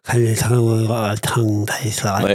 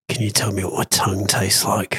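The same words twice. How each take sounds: First: It is said with the tongue sticking out. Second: It is said in a normal voice.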